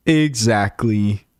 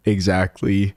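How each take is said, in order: First: Slow, stretched Exactly; drawn-out exactly. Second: Said in the usual way. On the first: Real, not acted. Streamer agreeing with a chat comment, slowly stretched out.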